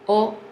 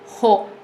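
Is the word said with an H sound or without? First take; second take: without; with. First: It starts with a vowel, no H sound. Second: It starts with a breathy H sound. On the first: The speaker calls it right. "notice that I did not pronounce the H" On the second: The speaker calls it wrong. "not ho"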